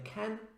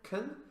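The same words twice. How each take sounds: First: The word has a full, clear vowel. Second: The word has a weak, reduced vowel. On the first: "rather than saying can" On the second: "reduced forms of verbs such as can"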